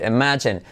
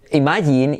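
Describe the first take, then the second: First: "imagine" as "ih-MA-jun"; correct pronunciation. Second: "imagine" as "ee-ma-YEEN"; wrong pronunciation. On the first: Shown as a demonstration. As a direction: stress the middle of "imagine", reduce the end. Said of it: "empieza a decir". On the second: Retold or imitated. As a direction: mimic Spanish "imagine" with full ee vowels. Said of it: "Para de decir".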